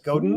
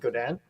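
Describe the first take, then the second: First: The name is read the way it looks in English. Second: The name is said the Canadian way. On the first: "It looks like Godin" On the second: "They pronounce it Godin"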